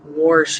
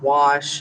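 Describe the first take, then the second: First: The word is said with a Midwest pronunciation. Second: The word is said with a standard pronunciation. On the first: "wash instead of wash" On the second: "instead of wash"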